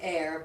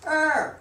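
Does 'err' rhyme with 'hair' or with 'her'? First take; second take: hair; her. First: The word rhymes with hair. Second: The word rhymes with her. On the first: This is the common modern way. "many people say air" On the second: This is the original way. "the original pronunciation of er"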